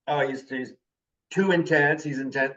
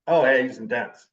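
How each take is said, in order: First: Imitating a critic, lightly disapproving; mild mock insult. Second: Imitating an impressed admirer; mild admiring compliment. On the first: People describing him as too intense, lightly insulting. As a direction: put a touch of criticism on "intense". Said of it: "mean it as an insult". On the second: People describing him as intense, lightly complimenting. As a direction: say it as praise, with an approving "oh". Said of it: "mean it as a compliment".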